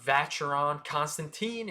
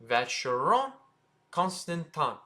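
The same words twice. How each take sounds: First: Put-on Vacheron Constantin as vatch-er-on con-stan-teen; hard CH and teen in Vacheron Constantin; mispronunciation. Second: Vacheron Constantin as vash-er-on con-stan-tan; French pronunciation. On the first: Teacher shows what not to say, mispronunciation. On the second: Teacher gives viewers the correction, French pronunciation. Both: Shown as a demonstration. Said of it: "again, it's not".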